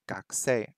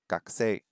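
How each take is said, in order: The two takes are said the same way.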